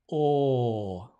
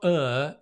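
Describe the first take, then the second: First: The vowel is long, back and rounded. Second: The vowel is short, central and unrounded. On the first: The speaker calls it right. "it's a round shape" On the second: The speaker calls it wrong. "it's not er"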